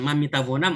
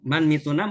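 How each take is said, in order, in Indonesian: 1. Kata kerjanya diucapkan dalam bentuk lengkap. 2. Kata kerjanya diucapkan dalam bentuk singkat. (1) "ah ini baru belajar bahasa Farsi ini" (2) "berarti pintar ya orang oh pasnya lancar"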